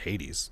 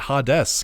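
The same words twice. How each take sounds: First: The name is said as the Greek god's name. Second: The name is split as on the card. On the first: The speaker calls it right. "I didn't realize it was just Hades" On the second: The speaker calls it wrong. "Why did I always pronounce it Hades because that's how it's the card is. There's a space in between"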